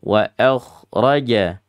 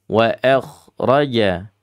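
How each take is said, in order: No difference in how they are said.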